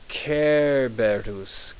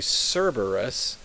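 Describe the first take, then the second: First: The name begins with a K sound. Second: The name begins with an S sound. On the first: This is the Latin way of saying the name. "in Latin, the C is like a K" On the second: This is the English way of saying the name. "In English, we say Cerberus"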